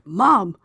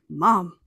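First: The word is said loudly. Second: The word is said softly.

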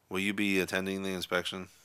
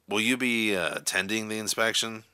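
First: The question is asked in a bored tone. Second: The question is asked in an angry tone. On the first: "a bored, disinterested tone" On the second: "in an angry, irritated tone of voice"

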